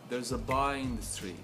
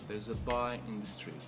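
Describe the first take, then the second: First: Stress falls only on boy and street. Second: Stress falls only on boy and street.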